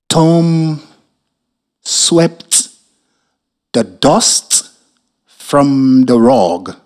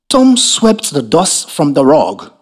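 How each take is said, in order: First: It is said very slowly. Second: It is said at normal speed.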